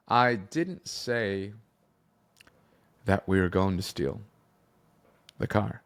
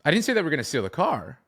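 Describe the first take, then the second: First: Very slow, with long pauses between phrases; slow tempo. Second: Quick, higher-pitched run-through without a break; fast tempo. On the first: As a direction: stretch it out and make them wait. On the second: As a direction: rush the whole line in one go. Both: Shown as a demonstration. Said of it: "fast or slow?".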